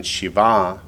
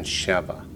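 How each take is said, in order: First: Shiva accented on its final syllable; end-stressed Shiva; stress on last syllable. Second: Sheva accented on its opening syllable; front-stressed Sheva; stress on first syllable. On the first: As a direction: put the weight on "va" in Shiva. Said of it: "So if it's masculine". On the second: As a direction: put the weight on "She" in Sheva. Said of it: "the accent's on the first syllable". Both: Shown as a demonstration.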